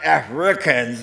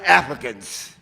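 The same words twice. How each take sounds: First: The word is said with a clear R sound. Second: The word is said without its R sound. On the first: The speaker calls it right. "with the R" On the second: The speaker calls it wrong. "you just dropped every T H E R sound"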